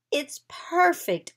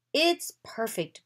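First: High, louder, drawn-out exclamation; delighted cry. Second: Said in the usual way. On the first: A narrator's reading. Anna sees the carriage made from her drawing, crying out delightedly. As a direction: stretch it out with excited delight. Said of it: "Anna cried". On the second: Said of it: "Bo said".

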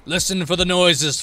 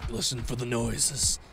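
First: Louder, projected reminder; loud instruction. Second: Low, hushed reminder. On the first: Killer tells friends to listen for noises, called out. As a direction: call it out to the group. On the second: Killer listening for survivors, hushed reminder. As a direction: lower and softer, to oneself. Repeats the hint, first low. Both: Acted.

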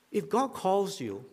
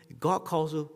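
First: "if God calls you" said slowly, leaning on God; slow emphasis. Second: Said in the usual way. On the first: Shown as a demonstration. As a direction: weigh each word of "if God calls you".

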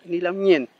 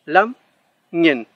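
First: Lamñen with palatal ñ, the mistake; wrong ñ sound. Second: Lamñen with one back nasal ng, louder; correct ng. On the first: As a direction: show lamñen said with Spanish ñ. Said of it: "Hay personas que lo pronuncian como ñ". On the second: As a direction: say lamñen with ng as a single sound. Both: Shown as a demonstration.

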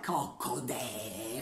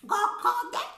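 First: Slow low cluck. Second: Hen cluck. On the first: Hen clucking in the poem. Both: Acted.

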